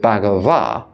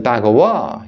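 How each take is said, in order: First: The middle consonant is a v sound. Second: The middle consonant is a w sound. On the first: "instead of Bhagava" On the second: "pronounce those letters the way I do and say Bhagawa"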